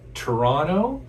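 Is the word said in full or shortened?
full. The word is said in full, three syllables. The speaker calls it right.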